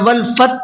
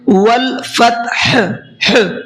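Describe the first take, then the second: First: The final h sound is dropped completely. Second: A bare h is sounded after t, without a vowel. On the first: The speaker calls it wrong. "या वल फत पढ़ते हैं" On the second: The speaker calls it right. "हा को साकिन करके उसकी आवाज निकल रही है"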